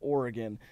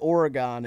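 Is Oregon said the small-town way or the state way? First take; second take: state way; small-town way. First: It is said the way the state is pronounced. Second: It is said the way the small town says it. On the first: The speaker calls it right. "instead of Oregon" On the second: The speaker calls it wrong. "I've said Oregon"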